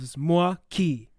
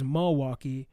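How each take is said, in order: First: The word is said with only two syllables. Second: The word is said with more than two syllables. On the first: This is the historically original form. The speaker calls it right. "it's actually only two syllables" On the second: This is how locals in the state say it. The speaker calls it wrong. "we pronounce it in the state as Milwaukee"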